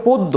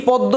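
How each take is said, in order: First: পদ্য with a closed o, "pod-do"; corrected pronunciation. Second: পদ্ম with an open "aw" first vowel, "pawd-do"; rejected pronunciation. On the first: Teacher corrects a student's written answer, closed-o pronunciation. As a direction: say পদ্য with ও in the first syllable. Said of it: "এটা হবে পদ্য". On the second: Teacher shows students the rejected form, open-vowel pronunciation. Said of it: "এই পদ্ম সেটা না". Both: Shown as a demonstration.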